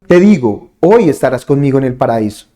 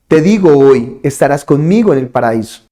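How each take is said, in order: First: The pause comes right before the word 'hoy'. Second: The pause comes right after the word 'hoy'. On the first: Paradise will be reached that same day. The speaker calls it wrong. "Opción uno" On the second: The promise is made today, for a later time. The speaker calls it right. "es correcto colocar la coma allí"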